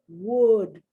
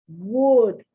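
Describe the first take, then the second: No difference in how they are said.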